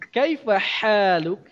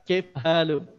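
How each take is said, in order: First: The h in haluk is a clear throaty sound. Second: The h in haluk is a plain, unclear sound. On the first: The speaker has mastered the sound. The speaker calls it right. "Bagus bahasanya" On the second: The speaker never studied the sound. The speaker calls it wrong. "tidak jelas antara huruf H dan huruf huruf H"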